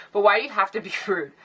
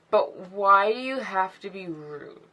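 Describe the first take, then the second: First: Said in the usual way. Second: Slow, dragged-out question with an odd voice; odd drawn-out delivery. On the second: Real, not acted. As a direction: stretch every word out, strangely. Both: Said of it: "I don't know why I said it like that".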